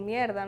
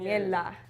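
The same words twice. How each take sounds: First: The consonant before the d is an r sound. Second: The consonant before the d is an l sound. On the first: "en vez de decir como" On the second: "nosotros la R la volvemos una L"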